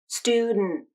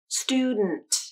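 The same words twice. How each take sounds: First: The final T is stopped without release. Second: The final T is released with air. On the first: "nasal plosion and stop T combination" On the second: "Can you hear the release of air as I say the true T sound?"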